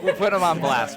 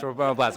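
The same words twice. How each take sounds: First: "We'll put 'em on blast" said through a laugh; chuckling out "put 'em on blast". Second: Said in the usual way. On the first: Real, not acted. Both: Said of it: "We'll put 'em on blast".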